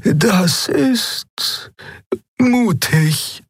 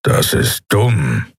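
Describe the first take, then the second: First: Very high, hesitant with a pause; high voice, pausing before the praise; Xea's character voice. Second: Growling. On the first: Acted. Voices Xea reacting to plan. (hohe, zögernde Figurenstimme) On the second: A narrator's reading. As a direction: growl it out slowly. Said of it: "knurrte Keru". (langsam geknurrt)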